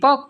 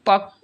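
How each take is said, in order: First: The final consonant is said once. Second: The final consonant is said doubled. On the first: The speaker calls it wrong. "আমরা কি পক বলি" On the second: The speaker calls it right. "ক কয়বার উচ্চারণ হইলো এবার, দুইবার"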